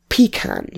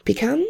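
First: "Pecan" said as PEE-can, stress on the first syllable; pron pecan. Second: "Pecan?" said as pih-KAHN with a questioning rise; pron pecan. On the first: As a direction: say "Pecan" as pee-kan, falling. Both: Shown as a demonstration. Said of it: "I say both".

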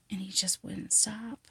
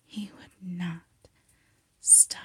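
First: Said in the usual way. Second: "not" set apart, then a pause before a whispered "stop"; emphatic repetition. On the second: Acted. Patient stressing to her doctor that he kept on, "not" and "stop" spaced emphatically.

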